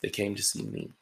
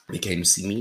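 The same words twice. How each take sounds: First: Said in the usual way. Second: "me" said again with a rising lift; emphatic repeat. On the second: Shown as a demonstration. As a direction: repeat "They came to see me" to drive it home.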